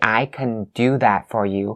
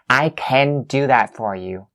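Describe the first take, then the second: First: The word can is reduced to kun. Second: The word can is full and stressed. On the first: "you have to say" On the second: "When you stress or you emphasize"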